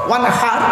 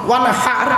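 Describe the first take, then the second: No difference in how they are said.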